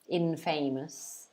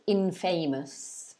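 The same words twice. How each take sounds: The two takes are said the same way.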